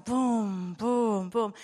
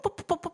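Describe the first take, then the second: First: Slow heartbeat. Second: Quick, clipped pum pum pum of a racing heart; fast heartbeat. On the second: Preacher showing the congregation an untrained heart, quick pum pum. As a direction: tap out a hurried heartbeat with your voice. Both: Shown as a demonstration. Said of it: "sondern es wird langsamer".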